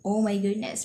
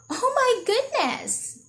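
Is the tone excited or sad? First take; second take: sad; excited. First: It is said in a sad, lonely way. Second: It is said in an excited, energetic way.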